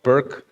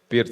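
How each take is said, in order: First: The name sounds like the English word 'perk'. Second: The name does not sound like English 'perk'. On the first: This is how people in the UK say it. The speaker calls it wrong. "so not Perk" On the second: This is how the Slovenian grandmaster's name is said. The speaker calls it right. "but Pirc"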